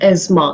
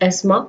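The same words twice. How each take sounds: First: The middle consonant is a buzzing z sound. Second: The middle consonant is a soft s sound. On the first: This is the American pronunciation. "in American English, it is pronounced as asthma, Z से" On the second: This is the British pronunciation. "In British language, it is pronounced as asthma"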